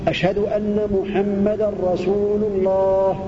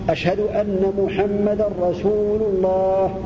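The two takes are said the same way.

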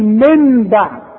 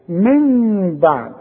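First: The n is pronounced as a clear n. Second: Lips stay slightly open with a nasal hum. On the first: The speaker calls it wrong. "ولا اقول من بعد واظهرها نون" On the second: The speaker calls it right. "هيبقى افتح شفايفي فتح خفيف، انفراد في الشفايف"

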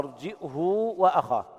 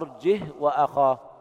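First: A glottal stop, then h with a long u. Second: The h carries no vowel at all. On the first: "يثبتون الهمز بين الجيم والهاء مع ضم الهاء وصلتها بواو لفظية" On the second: "بدون همز وإسكان الهاء"

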